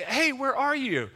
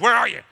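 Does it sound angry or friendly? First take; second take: friendly; angry. First: It is said in a plain, friendly way. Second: It is said in an angry, harsh way.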